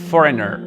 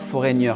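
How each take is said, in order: First: The middle has a plain n sound. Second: The middle has a French-style 'ny' sound. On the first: The speaker calls it right. "Le G N, il faut l'éliminer. Il ne se prononce pas" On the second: The speaker calls it wrong. "on ne dit pas foreigner"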